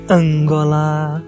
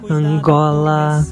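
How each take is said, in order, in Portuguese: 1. A tônica está na primeira sílaba. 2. A tônica está na segunda sílaba. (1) "Se fosse Angola, teria que ter um acento circunflexo em A" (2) "o acento tônico é Gó"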